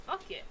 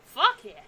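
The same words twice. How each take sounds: First: Softer, higher private yes; a hushed little victory cheer; quiet cheer. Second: Loud, higher whoop of joy; excited cheer. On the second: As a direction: cheer it out, thrilled. Excited over a hundred bucks. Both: Real, not acted.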